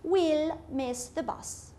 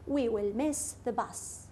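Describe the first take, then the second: First: Will is contracted and joined onto we. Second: Will is said in full as a separate word.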